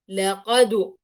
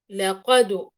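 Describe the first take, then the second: First: The final d bounce leans toward a u vowel. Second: The final d bounce leans toward a u vowel.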